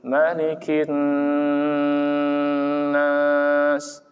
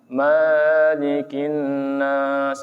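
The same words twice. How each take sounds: First: The first vowel is kept short. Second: The first vowel is drawn out long. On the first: The speaker calls it right. "cukup Malikin nas" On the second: The speaker calls it wrong. "enggak boleh"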